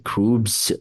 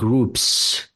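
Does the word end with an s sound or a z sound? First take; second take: z; s. First: The word ends with a voiced z sound. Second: The word ends with a voiceless s sound. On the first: The speaker calls it wrong. "mispronounce this word and say" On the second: The speaker calls it right. "just like Khaled said it"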